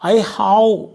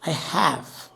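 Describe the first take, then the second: First: The vowel in 'have' is a long 'ah'. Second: The vowel in 'have' sounds as in 'apple'. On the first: The speaker calls it wrong. "ഇങ്ങനെ പറയരുത്" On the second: The speaker calls it right. "ആപ്പിൾ എന്ന് പറയല്ലേ"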